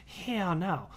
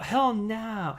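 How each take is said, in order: First: "Hell no" said as two words, hell then no; saying the handle. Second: "Hell no" stretched slow, pitch higher, both words weighted; drawn-out hell no. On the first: Trying out the Twitter handle as "Hell no", amused. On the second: Repeating the handle "Hell no" to viewers, slow and relishing. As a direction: savour "Hell no" slowly. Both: Shown as a demonstration. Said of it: "I'm just gonna say it like that from now".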